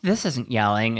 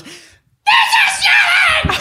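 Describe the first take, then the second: First: Said in the usual way. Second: Very high, drawn-out full scream; screaming mom imitation. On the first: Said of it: "she turns around and she goes". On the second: Mom turning on her kids in the car, imitated scream. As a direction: blow up, stretching every word at full volume. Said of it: "she screamed and freaked out".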